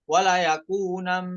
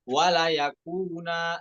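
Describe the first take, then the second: First: The phrase ends with an m sound. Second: The phrase ends with a long a vowel. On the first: The speaker calls it wrong. "kita diminta wakaf bukan wala yakunam" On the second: The speaker calls it right. "tapi apa? Wala yakuna"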